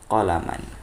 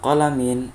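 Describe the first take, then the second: First: The word ends with the sound -an. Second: The word ends with the sound -in. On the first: The speaker calls it right. "walakin qalaman" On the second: The speaker calls it wrong. "Laisa qalamin"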